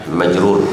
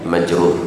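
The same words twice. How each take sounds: No difference in how they are said.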